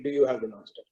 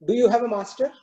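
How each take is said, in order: First: The lion echoing the question lower and softer, mocking; a proud lion sneering the words back; lightly voiced lion, lower and dismissive; scornful lion. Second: The cow voiced lighter and higher, asking gently; a calm, curious cow, pitched up; lightly voiced cow asking a question; thoughtful cow. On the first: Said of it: "And the lion says". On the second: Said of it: "asks the lion".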